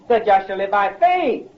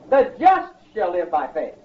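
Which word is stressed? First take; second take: faith; just. First: The word faith carries the main stress. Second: The word just carries the main stress. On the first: It is about living by faith rather than by law. "our emphasis is on the word faith" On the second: It is about who is justified and who is not. "our emphasis is on the word just"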